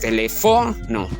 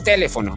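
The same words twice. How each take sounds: First: The stress is on the third syllable. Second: The stress is on the first syllable. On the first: "Si llevara la fuerza de voz en fo" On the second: "Si llevara la fuerza de voz en T"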